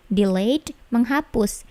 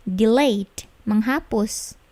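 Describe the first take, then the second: No difference in how they are said.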